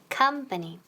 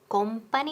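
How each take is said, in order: First: The first vowel sounds like an a. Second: The first vowel sounds like an o. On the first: The speaker calls it right. "Esa O suena como que, como una A" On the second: The speaker calls it wrong. "No decimos company. Company, no"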